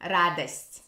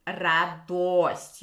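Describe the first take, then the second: First: Радость with a reduced A-like first O, Moscow style; Moscow Russian. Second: Радость with a clear full O after the Д; Church Slavonic O. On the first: Teacher showing how Moscow Russian says радость. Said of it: "in Moscow Russian, it will be". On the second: Teacher contrasting Church Slavonic with Moscow Russian. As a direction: say радость with the round O. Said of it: "You have to say that O". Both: Shown as a demonstration.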